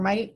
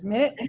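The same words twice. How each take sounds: First: It is pronounced as the word for tiny. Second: It is pronounced as the word for time. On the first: Something very small. "or minute, tiny" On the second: A unit of time. "minute, time"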